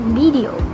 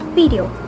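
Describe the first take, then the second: First: It is said with a Konglish accent. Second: It is said with a Konglish accent.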